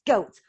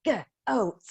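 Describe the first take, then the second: First: Said in the usual way. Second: GOAT split into g, pause, oat; segmented word. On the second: Shown as a demonstration. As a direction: sound out GOAT in separate pieces. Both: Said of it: "segment the word goat".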